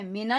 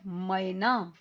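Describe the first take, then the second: First: मेना said with plain e, not ai; wrong e sound. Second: मैना said slowly with a full ai sound; correct ai sound. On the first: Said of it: "मेना नहीं कहना". (मेना, सादा ए की आवाज़) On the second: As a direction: stretch the ai in मैना. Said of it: "ये है मैना". (मैना, ऐ की पूरी आवाज़ धीरे से) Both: Shown as a demonstration.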